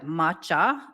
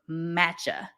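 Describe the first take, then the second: First: The first vowel is an open ah sound. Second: The first vowel is flatter, not an ah. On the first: "I would say the ah, like matcha" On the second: "instead of"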